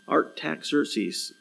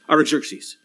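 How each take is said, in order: First: The name is said slowly and carefully. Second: The name is said quickly in one go. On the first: The speaker calls it wrong. "I'm not even saying it right" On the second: The speaker calls it right. "I should just say it fast"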